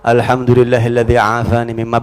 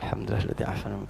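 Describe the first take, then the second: First: The phrase is said loudly, meant to be heard. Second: The phrase is said softly, under the breath. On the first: The other person should hear it as a rebuke. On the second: The afflicted person should not hear it and be offended. "Jadi kalau musibah dunia bacanya pelan"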